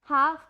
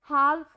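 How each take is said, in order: First: The word is said with a silent L. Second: The word is said with an audible L. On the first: The speaker calls it right. "हाफ में एल की कोई भी sound नहीं आती है" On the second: The speaker calls it wrong. "वो आपकी correct pronunciation नहीं होती है"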